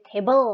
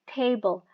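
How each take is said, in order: First: The stress is on the second syllable. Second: The stress is on the first syllable. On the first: The speaker calls it wrong. "nggak boleh" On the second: The speaker calls it right. "first syllable-nya A di sini ya. Dia lebih tinggi daripada E"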